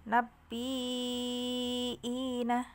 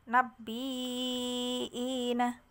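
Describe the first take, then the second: No difference in how they are said.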